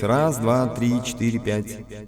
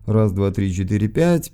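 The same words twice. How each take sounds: First: An added effect audibly processes the voice. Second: The treble is cut and bass boosted, sounding bassy. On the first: "нажмем эффект" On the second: "Вот я их сейчас уберу полностью. Добавлю сразу низа"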